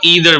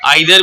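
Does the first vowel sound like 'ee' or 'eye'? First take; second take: ee; eye. First: The first vowel sounds like 'ee'. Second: The first vowel sounds like 'eye'. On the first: "ईदर भी पढ़ सकते हैं, दोनों pronunciation दुरुस्त है" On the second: "आइदर भी पढ़ सकते हैं इसको"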